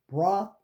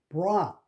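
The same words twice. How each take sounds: No difference in how they are said.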